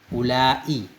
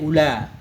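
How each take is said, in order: First: The vowel is long and ends with a glottal stop. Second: The vowel is short with no glottal stop. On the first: This is the Hijaz form found in the Quran. "mad pakai hamzah mamdudah" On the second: This is the Bani Tamim form. "kasar, pendek"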